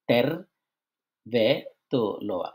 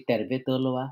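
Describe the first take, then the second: First: "তেরবে তোলোয়া" very slowly, leaning on "তের", then falling away; first-syllable stress. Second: Said in the usual way. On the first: Shown as a demonstration. Teacher demonstrating Finnish stress, heavy first syllable in "তেরবে তোলোয়া", falling end. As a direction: press hard on the start of "তেরবে", let "তোলোয়া" drop. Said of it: "প্রথম অংশে বেশি চাপ দিবেন". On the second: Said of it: "এটা কেমনভাবে উচ্চারণ করতে হবে".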